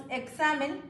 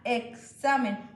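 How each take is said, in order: First: Examen said with a clear ks sound. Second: Examen said slowly, x as eksamen; slow sounded-out examen. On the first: Teacher sounding out examen with ks. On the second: Teacher slowly demonstrating the x in examen. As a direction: drag out examen to show the ks. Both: Shown as a demonstration. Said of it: "suena examen".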